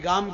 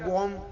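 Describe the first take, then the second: First: The vowel is an open 'ah' sound. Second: The vowel is a rounded 'oh' sound. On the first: This is the local Kathiawadi way of speaking. "આપણે કઈ ગામ ક્યાં છે" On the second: This is how people from the other region speak. "તો આ કે ગોમ ક્યાં"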